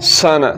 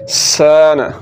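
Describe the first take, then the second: First: The vowel after s is cut short. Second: The vowel after s is drawn out long. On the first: The speaker calls it wrong. "سن رونگ" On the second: The speaker calls it right. "سان رائٹ"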